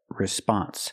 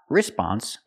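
First: The stress falls on the second syllable. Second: The stress falls on the first syllable. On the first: The speaker calls it right. "but response. Put the stress on the second syllable" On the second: The speaker calls it wrong. "Not response"

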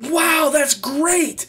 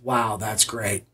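First: It is said with lively excitement. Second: It is said flatly, without excitement.

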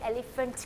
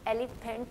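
First: The middle consonant is an 'f' sound. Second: The middle consonant is a plain 'p' sound. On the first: The speaker calls it right. "एलिफेंट कह रहे हैं, फ आवाज़ इसकी फ है" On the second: The speaker calls it wrong. "हम उसको एलिफेंट नहीं कह रहे"

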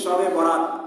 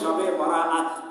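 First: The last word has a short middle vowel. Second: The last word has a long middle vowel. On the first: It means the night of a wedding. The speaker calls it wrong. "আমরা সাধারণত যে বলে থাকি শবে বরাত, তার মানে বিয়ের রাত্রি" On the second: It means the night of release. The speaker calls it right. "এটা সঠিক উচ্চারণ হবে শবে বরাআত"

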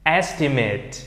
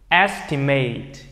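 First: The last syllable ends with an 'it' sound. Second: The last syllable ends with an 'ate' sound. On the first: It is used as a noun or adjective. "Nhưng nếu mà là danh từ hoặc là tính từ thì nó sẽ đọc thành âm it" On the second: It is used as a verb. "nếu một động từ tận cùng bằng âm ate thì ... nó sẽ được đọc thành âm ate"

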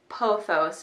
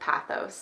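First: The first vowel sounds like the one in 'pot'. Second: The first vowel sounds like the one in 'pat'. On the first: This is the speaker's own way of saying it. "I definitely say pothos" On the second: This is a way other people say it. "instead of pathos"

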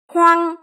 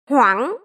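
First: The syllable is said on a level pitch. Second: The pitch rises with a break in the voice.

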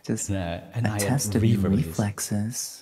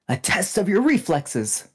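First: The voice is soft, sultry and slower. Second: The voice is firm and commanding. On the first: "if you do a nice sultry voice and kind of say it a bit slower" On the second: "it would be commander vibes"

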